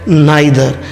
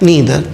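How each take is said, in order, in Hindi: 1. पहला स्वर 'eye' जैसा बोला जाता है। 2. पहला स्वर 'ee' जैसा बोला जाता है। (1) "ये जो प्रोनाउंसिएशन है इंडिया में एक्सेप्टेड है" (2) "इसका सही उच्चारण है नीदर"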